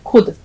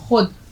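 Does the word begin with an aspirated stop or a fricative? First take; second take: aspirated stop; fricative. First: It begins with a plain aspirated k sound. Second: It begins with a rough throaty fricative sound. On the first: The speaker calls it wrong. "अक्सर लोग बोलते हैं खुद, तो खुद जो है वो गलत है" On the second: The speaker calls it right. "आप बोलेंगे खुद। खे व पिशकू और दाल"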